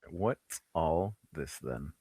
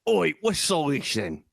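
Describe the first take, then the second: First: Low, soft, slow British deadpan; understated British accent. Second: Higher, drawn-out British bobby bit; hammed-up British challenge; mock British accent. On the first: Pretend. Co-host echoing the catchphrase, understated British accent. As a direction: murmur it slowly in British. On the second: Trading British catchphrases with his co-host, mock British accent.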